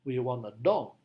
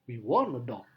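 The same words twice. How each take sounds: First: The strongest stress falls on dog. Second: The strongest stress falls on want. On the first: It answers what we want. "penekanannya harus pada kata dog" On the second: It answers what about a dog. "Maka penekanannya pada kata want"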